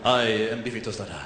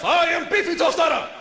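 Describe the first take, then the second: First: Low, smoldering porn-star introduction. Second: High, hammed-up announcement of the name; porn-star half. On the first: Acted. Porn star announcing his stage name, low-voiced. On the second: Other half of a guy taking over, high and brazen. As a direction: proclaim the stage name, pitched way up. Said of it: "The other half".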